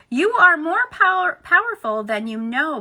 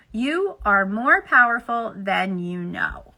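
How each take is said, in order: First: Said in the usual way. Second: Slow, deliberate read-aloud; slow emphatic repeat. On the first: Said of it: "hear these words newly". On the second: Acted. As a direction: let each word land slowly. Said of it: "we ask you to hear these words newly".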